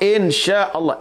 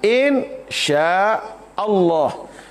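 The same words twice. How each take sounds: First: It is run together as fewer words. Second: It is said as three separate words. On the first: It means creating God. The speaker calls it wrong. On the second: It means if God wills. The speaker calls it right. "kena sebut dengan tiga perkataan"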